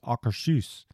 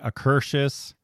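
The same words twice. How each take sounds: First: The name is said the native Norwegian way. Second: The name is said the common anglicized way. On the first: The speaker calls it right. "true Norwegians will tell you is Akershus" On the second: The speaker calls it wrong. "A lot of people will say Akershus"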